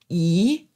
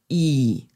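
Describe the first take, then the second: First: The syllable is said with the second tone. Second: The syllable is said with the third tone. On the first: "der zweite Ton" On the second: "der dritte Ton"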